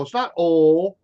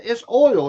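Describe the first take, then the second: First: It's not oil with oil as two clipped sounds, aw-il; mock the northern oil; Yankee oil. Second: It's oil with oil as one round vowel, oy-l; oil drawled. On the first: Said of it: "That's a Yankee term". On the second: Shown as a demonstration. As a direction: lean on oil, said his way. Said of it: "It's not, it".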